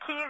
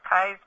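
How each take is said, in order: First: The name is said with an 'ee' vowel. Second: The name is said with an 'eye' vowel. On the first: Some outsiders say it this way. "Some people pronounce it Keys" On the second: Local people say it this way. "around here, all the locals, it's Kai's Peak"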